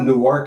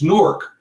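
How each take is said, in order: First: Newark is said in a fuller, unclipped form. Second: Newark is clipped to sound like 'Nork'. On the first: "not Newark" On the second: "So N O R K"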